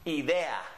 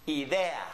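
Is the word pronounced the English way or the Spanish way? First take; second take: Spanish; Spanish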